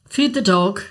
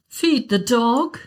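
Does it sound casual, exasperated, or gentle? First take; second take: casual; gentle. First: It sounds like a casual reminder. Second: It sounds like a gentle, concerned suggestion.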